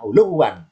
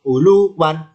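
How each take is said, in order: First: ULUWAN as "uluw-wan", short LU; merged final form. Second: ULUWAN with LU held long and higher. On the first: Teacher gives the finished form, doubled "uluw-wan". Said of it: "ini bentuk jadi". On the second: Teacher shows the lengthened syllable, long high "luu". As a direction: stretch "luu", then add "wan" in ULUWAN. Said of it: "Lunya panjang". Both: Shown as a demonstration.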